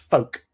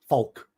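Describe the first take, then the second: First: The L sound is silent in the word. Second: The L sound is pronounced in the word. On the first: The speaker calls it right. "but it's folk, as in F O K E" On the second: The speaker calls it wrong. "a lot of Americans pronounce the L"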